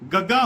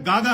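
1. ਦੋਹਰੇ ਗ ਤੋਂ ਪਹਿਲਾਂ ਪਹਿਲਾ ਸਵਰ ਛੋਟਾ ਹੁੰਦਾ ਹੈ। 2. ਇਕਹਿਰੇ ਗ ਤੋਂ ਪਹਿਲਾਂ ਪਹਿਲਾ ਸਵਰ ਲੰਬਾ ਹੁੰਦਾ ਹੈ। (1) "ਗੱਗਾ ਹੁੰਦਾ" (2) "ਗਾਗਾ ਨਹੀਂ ਹੁੰਦਾ"

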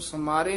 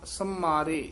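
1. m ਧੁਨੀ ਛੋਟੀ ਅਤੇ ਹਲਕੀ ਹੈ। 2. m ਧੁਨੀ ਖਿੱਚ ਕੇ ਅਤੇ ਦੋਹਰੀ ਬੋਲੀ ਜਾਂਦੀ ਹੈ। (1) "ਇਸ ਨੂੰ ਸਮਾਰੇ ਨਹੀਂ ਕਹਿਣਾ" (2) "ਸੰਮਾਰੇ ਇਸ ਤਰ੍ਹਾਂ ਉਚਾਰਨ ਕਰਨਾ"

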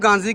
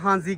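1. ਨਾਮ ਦੀ ਸ਼ੁਰੂਆਤ ਸਖ਼ਤ G ਆਵਾਜ਼ ਨਾਲ ਹੁੰਦੀ ਹੈ। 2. ਨਾਮ ਦੀ ਸ਼ੁਰੂਆਤ H ਆਵਾਜ਼ ਨਾਲ ਹੁੰਦੀ ਹੈ। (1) "ਆਪਾਂ ਇਹਨੂੰ ਗਾਂਜ਼ੀ ਕਹੀਏ ਨੇ" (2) "ਉਹ ਇਹਨੂੰ ਹਾਂਜ਼ੀ ਕਹਿੰਦੇ ਸੀ, ਜੀ ਸਾਇਲੈਂਟ ਸੀ"

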